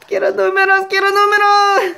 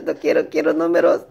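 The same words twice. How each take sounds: First: Quiero números squeaked much higher and louder; mock pleading squeal. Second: Said in the usual way. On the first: Begging the last ticket for numbers, high comic squeal.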